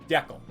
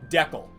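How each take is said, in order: Both takes have the same delivery.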